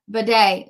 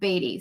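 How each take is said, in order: First: The surname sounds like the word bidet. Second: The surname sounds like the word beady. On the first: The speaker calls it right. "So I think it's like bidet" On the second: The speaker calls it wrong. "That's how we thought that his name was pronounced"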